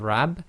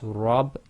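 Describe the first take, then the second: First: The word is said with a light, thin vowel. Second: The word is said with a heavy, full vowel. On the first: The speaker calls it wrong. "instead of rab" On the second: The speaker calls it right. "it's rab"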